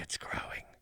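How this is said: It is spoken in a whisper.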